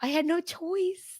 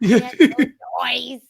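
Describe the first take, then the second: First: Laughing. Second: Louder, mock dramatic. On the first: Acted.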